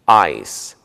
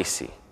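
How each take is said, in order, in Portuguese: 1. A palavra termina no seu último som de consoante. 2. Uma vogal extra, 'ee', vem depois da consoante final. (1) "Não se pronuncia o som do I no final" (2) "e não"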